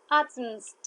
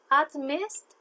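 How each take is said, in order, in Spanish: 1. La m pasa directo a st sin vocal. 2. Una vocal e suena entre la m y st. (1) "no tiene una fluidez" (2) "para que pueda sonar de una manera un poquito más fluida"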